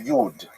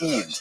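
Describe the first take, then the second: First: It is said the Western German Yiddish way. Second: It is said the Eastern Ukrainian way, without y. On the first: "If you uh, lived in Western Germany, you would say" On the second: "if you lived in Eastern Ukraine, you'd say Id, ... just without the Y"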